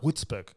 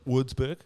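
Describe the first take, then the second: First: The name is said with German-style sounds. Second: The name is said with English-style sounds. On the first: This is how the locals said it. The speaker calls it right. "they're like, no, no, no" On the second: This is how the visitor said it. The speaker calls it wrong. "I say Würzburg"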